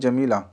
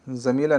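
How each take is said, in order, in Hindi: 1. यह शब्द 'j' ध्वनि से शुरू होता है। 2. यह शब्द 'z' ध्वनि से शुरू होता है। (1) "नहीं जमीला" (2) "ज़मीला नहीं"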